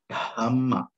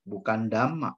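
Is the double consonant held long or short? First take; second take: long; short. First: The middle consonant is held long and doubled. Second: The middle consonant is short and single. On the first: The speaker calls it right. "tapi Dhamma" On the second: The speaker calls it wrong.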